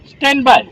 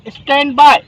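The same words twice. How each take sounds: First: Short firm stand by; radio code demo. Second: Crisp raised stand by; radio code demo. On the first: Trainer repeating the busy code for cadets, firm radio code. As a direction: clip it out over the radio. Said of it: "तो क्या बोलेंगे". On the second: Trainer showing what to say when busy, crisp radio code. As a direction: say it like a busy operator on air. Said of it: "मुझे आपको message देना है". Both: Shown as a demonstration.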